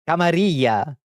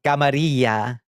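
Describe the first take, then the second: First: Camarilla said the anglicized way with a hard L; gringo pronunciation. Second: Rolled Spanish-style Camarilla; Spanish pronunciation. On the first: Retold or imitated. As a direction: Camarilla with American vowels and a clear L. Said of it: "it literally sounds like my aunt". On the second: Shown as a demonstration. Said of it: "When I hear somebody say Camarilla".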